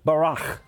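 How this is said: It is said with a Hebrew-like pronunciation. "if you were to pronounce it, it's pronounced barach"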